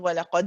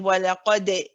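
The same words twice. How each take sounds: First: The final d ends in a sudden, jerky stop. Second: The final d ends with a light i-like vowel. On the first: "that sudden stop, jerk at the end" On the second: "you're just ending with a very big smile, and it's just sounding like a di"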